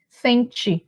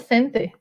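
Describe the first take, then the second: First: The final vowel sounds like 'ee'. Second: The final vowel sounds like 'eh'. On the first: This is how people in the north say it. "ele tem uma variação que é para o som de I" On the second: This is how people in the south say it. "o pessoal lá do sul, né? Fala sente"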